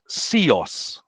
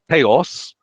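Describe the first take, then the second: First: The word begins with an s sound. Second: The word begins with a th sound. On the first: This is the Spartan dialect form. "in Sparta, they would have said" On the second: This is the Athenian dialect form. "in Athens, they would have pronounced the word for God as"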